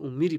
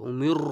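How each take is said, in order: First: উমির with a clear i and light r; thin light r. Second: উমির with a heavy, rolled r; wrong thick r. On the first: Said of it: "এই জন্য এখানে কি পড়তে হবে?". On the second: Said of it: "রকে মোটা করা যাবে না". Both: Shown as a demonstration.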